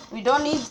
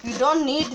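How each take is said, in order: Both takes have the same delivery.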